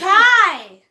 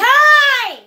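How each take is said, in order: First: It is said at normal loudness. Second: It is said louder.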